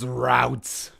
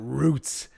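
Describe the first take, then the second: First: The vowel rhymes with the vowel in out. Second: The vowel rhymes with the vowel in boot. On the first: The speaker calls it right. "It's routes" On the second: The speaker calls it wrong. "it's not roots"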